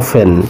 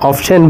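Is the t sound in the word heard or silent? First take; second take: silent; heard. First: The t sound is left out entirely. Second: The t sound is pronounced in the middle. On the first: "but আমরা এটাকে pronunciation করব অফেন" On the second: "আমরা অনেক সময় এটাকে অফটেন বলে থাকি"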